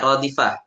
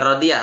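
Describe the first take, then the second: First: The middle consonant is an F sound. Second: The middle consonant is a Y sound. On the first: The speaker calls it right. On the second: The speaker calls it wrong. "Bukan radiyah"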